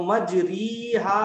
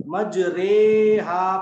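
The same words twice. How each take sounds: First: मजरीहा with a long, slow 'ree'; maroof 'ee' vowel. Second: मजरेहा with a long, loud 'ray'; majhool 'ay' vowel. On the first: Teacher showing the ordinary reading, मजरीहा with long 'ree'. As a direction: stretch री as a clear 'ee' in मजरीहा. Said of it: "अगर मारूफ अगर इसको पढ़ें". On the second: Teacher correcting the reading to imala, मजरेहा with long 'ray'. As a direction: stretch रे as 'ay' in मजरेहा, loudly. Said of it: "मारूफ नहीं बल्कि मजहूल पढ़ते हैं". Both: Shown as a demonstration.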